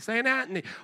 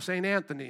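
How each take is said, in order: First: It is said in an Italian accent. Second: It is said in a plain accent.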